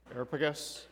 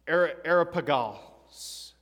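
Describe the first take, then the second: First: Areopagus rattled off quickly and softly; quick, quieter run through "Areopagus"; said fast. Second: Areopagus sounded out slowly, with a false start; slow, unsure attempt at saying "Areopagus"; hesitant pronunciation. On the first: Shown as a demonstration. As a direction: slip "Areopagus" by quickly, softer, to hide a mispronunciation. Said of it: "If I say it really fast". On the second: Real, not acted. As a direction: stumble slowly into "Areopagus", drawing it out. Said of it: "if I'm mispronouncing it".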